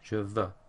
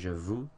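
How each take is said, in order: First: The second word has an 'euh' vowel sound. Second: The second word has an 'oo' vowel sound. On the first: The speaker calls it right. "E U makes an E sound" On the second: The speaker calls it wrong. "some people have a tendency to say je vous, ... But this isn't correct"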